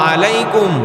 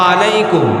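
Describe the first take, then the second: Both takes have the same delivery.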